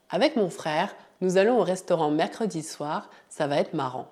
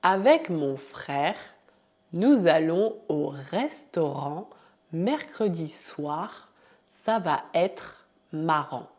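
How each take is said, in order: First: The sentence fluent and faster; natural speed. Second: Slow, careful model sentence; slow correction. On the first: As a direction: say it at normal speed. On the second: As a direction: read it out slowly for learners. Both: Shown as a demonstration. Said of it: "Vamos fazer a correção".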